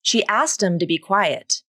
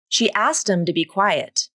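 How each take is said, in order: First: The words are reduced and linked together. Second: The words are reduced and linked together.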